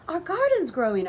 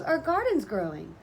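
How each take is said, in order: First: High, loud happy shout; excited yell. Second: Said in the usual way. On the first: A narrator's reading. Child spotting the garden sprouting, yelling high and loud. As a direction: shout the news with glee. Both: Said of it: "I yelled".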